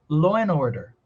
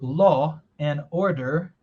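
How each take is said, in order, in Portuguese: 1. O d some e o n se liga em order. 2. Cada palavra é falada por completo e separadamente. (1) "O D de end já sumiu. A gente vai conectar o N" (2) "Você pode ter falado"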